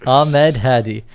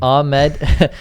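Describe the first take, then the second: First: Slow, loud Ahmed Hadi in Arabic accent. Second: Said in the usual way. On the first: Shown as a demonstration. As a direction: draw out the name the Arabic way. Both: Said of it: "I say it with the Arabic accent".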